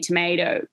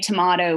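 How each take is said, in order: First: The word is said in an American accent. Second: The word is said in a non-American accent. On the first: "you say tomato" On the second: "trying to say tomato"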